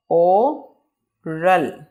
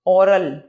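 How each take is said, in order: First: ओरल as o, long pause, ral; very slow two-part ओरल; broken into syllables. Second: Said in the usual way. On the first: Shown as a demonstration. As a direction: leave a long gap inside ओरल. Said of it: "word को रुक रुक के बयान करना". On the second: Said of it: "इसको pronunciate कर लेते हैं".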